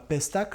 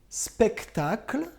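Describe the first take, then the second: First: The word begins with a plain p sound. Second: The word begins with an s-p sound cluster. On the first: The speaker calls it wrong. "et pas pestacle" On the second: The speaker calls it right. "Le spectacle"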